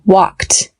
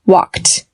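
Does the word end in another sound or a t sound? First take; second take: t sound; t sound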